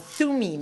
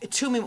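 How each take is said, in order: First: The word begins with a 'th' sound. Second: The word begins with a plain 't' sound. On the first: This is how people at the school say it. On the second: This is the speaker's own usual pronunciation.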